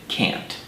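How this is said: It is said with an American accent.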